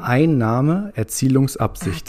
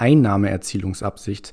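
First: The word is said slowly. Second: The word is said at normal speed.

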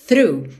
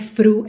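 First: The word begins with a th sound. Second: The word begins with an f sound. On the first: The speaker calls it right. "é through" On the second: The speaker calls it wrong. "não é F, não é fru"

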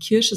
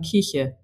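First: The middle consonant is a 'sh' sound. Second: The middle consonant is a soft 'ch' sound. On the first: This is the standard pronunciation of the fruit. "die sagen nicht Kirsche" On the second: This is how speakers from a certain region say it. "sondern Kirche"

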